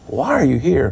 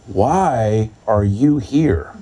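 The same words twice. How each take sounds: First: Said in the usual way. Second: "why are you here" very slow, each word weighted; pointed question. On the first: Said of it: "Not, "Why are you here?" but". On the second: Shown as a demonstration. Church man puzzled by visitor, slow pointed "why are you here". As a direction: draw out "why", then lean on "you" and "here". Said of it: "but, "Why are you here?".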